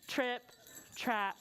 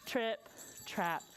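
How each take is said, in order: Both takes have the same delivery.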